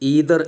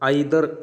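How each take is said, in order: First: The word begins with an 'ee' sound. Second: The word begins with an 'eye' sound. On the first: "American പ്രൊനൗൺസിയേഷനാണ്" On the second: "Indian British പ്രൊനൗൺസിയേഷനാണ്"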